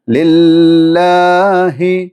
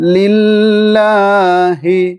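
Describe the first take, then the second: First: The h sound is said clearly and carefully. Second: The h sound is said clearly and carefully.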